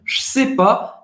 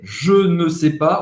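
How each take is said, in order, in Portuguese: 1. O ne é omitido da frase. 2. Todas as palavras são ditas, incluindo ne. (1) "cortar o ne da negação"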